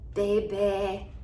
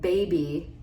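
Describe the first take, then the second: First: The final vowel is clipped into a short eh. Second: The final vowel is fully sounded and finished. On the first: The speaker calls it wrong. "Get that eh. I mean, to me that sounds awful" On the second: The speaker calls it right. "Instead of saying baby"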